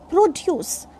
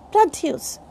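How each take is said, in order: First: The stress is on the first syllable. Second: The stress is on the second syllable. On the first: It is used as a noun or adjective. "This is noun or adjective" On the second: It is used as a verb. "So this is verb"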